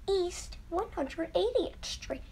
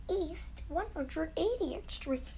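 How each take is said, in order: Both takes have the same delivery.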